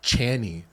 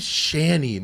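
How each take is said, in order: First: The name begins with a hard ch sound. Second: The name begins with a soft sh sound. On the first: The speaker calls it wrong. "not Channy" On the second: The speaker calls it right. "my name's Shani"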